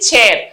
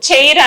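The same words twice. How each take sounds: First: No 'i' sound is heard in the vowel. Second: An 'i' sound is heard in the vowel. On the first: The speaker calls it right. "ఐ silent" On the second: The speaker calls it wrong. "చైర్ అనకూడదండి"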